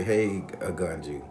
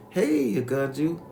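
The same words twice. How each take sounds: First: Said in the usual way. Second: High, slow, drawn-out hello; called-out greeting. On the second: Retold or imitated. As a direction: imitate a woman singing out a greeting to grandma. Greeting re-enacted in performed voice.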